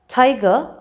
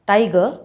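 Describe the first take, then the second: First: Tiger with a puff of air on the T; English T. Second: Tiger with retroflex, puffless T; hard-palate T. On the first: Teacher listing practice words, aspirated T in tiger. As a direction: say tiger, T off the gum ridge. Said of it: "that have the t sound in them". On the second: Teacher showing the wrong placement, retroflex T in tiger. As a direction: say tiger with the tongue back on the palate. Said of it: "It will sound like". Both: Shown as a demonstration.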